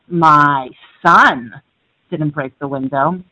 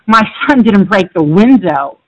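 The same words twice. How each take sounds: First: The word "son" carries the stress. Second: The word "window" carries the stress. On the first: A different child in the family broke it. "My daughter did" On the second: Something other than the window was broken. "he broke the door"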